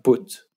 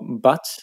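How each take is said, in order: First: It is said with a northern English vowel. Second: It is said with a standard English vowel.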